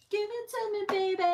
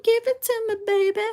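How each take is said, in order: First: Much higher, soft, breathy-free squeaky tease; mock seductive. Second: Much higher and full-voiced, bold come-on; hammed-up seductive. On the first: Reader playfully pretending to be the eager lover, high soft tease. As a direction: coo it up high and quiet like a playful come-on. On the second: Reader hamming up the lover's demand, high and bold. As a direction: belt the tease out high and brassy. Mock seductive, louder repeat.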